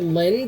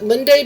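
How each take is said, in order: First: The final E is dropped entirely. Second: The final E is clearly pronounced. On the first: The speaker calls it wrong. "if you don't, you just get Lind" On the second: The speaker calls it right. "I overpronounce the E on purpose"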